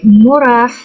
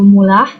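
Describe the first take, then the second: First: The middle consonant is an R sound. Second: The middle consonant is an L sound. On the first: "R sounds" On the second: "becomes L sounds"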